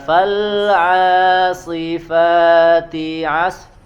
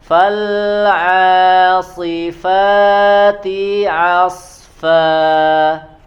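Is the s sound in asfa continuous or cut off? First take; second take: cut off; continuous. First: The s sound is stopped with a break. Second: The s sound flows on without a break. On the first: The speaker calls it wrong. "jangan di jeda di situ" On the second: The speaker calls it right. "dialirkan suaranya yang mengalir"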